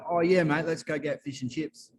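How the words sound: It is said in an Australian accent.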